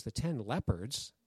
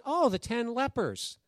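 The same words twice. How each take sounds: First: Low, slow, soft questioning repeat; puzzled echo. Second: High, drawn-out "oh" of sudden understanding; dawning realization. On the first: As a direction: echo it quietly, not quite understanding. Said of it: "She goes". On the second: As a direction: act out finally getting it, pitched high and slow. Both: Retold or imitated.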